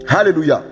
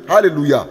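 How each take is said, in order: Both takes have the same delivery.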